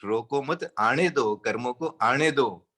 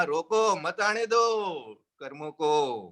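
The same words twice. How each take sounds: First: "रोको मत" joined, then "आने दो"; low voice, "रोको मत" as one phrase; pause after मत. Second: "रोको" alone, then "मत आने दो" joined; firm "रोको", comma, then slow "मत आने दो"; pause after रोको. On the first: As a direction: break after "मत", letting "आने दो" follow. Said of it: "एक कोमा ही बदलता है". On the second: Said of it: "रोको के पास लगा दिया coma". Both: Shown as a demonstration.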